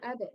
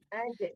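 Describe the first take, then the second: First: The middle consonant is a d sound. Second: The middle consonant is a j sound. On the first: The speaker calls it wrong. "bukan ada" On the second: The speaker calls it right. "tapi aja, jim yang mati ya"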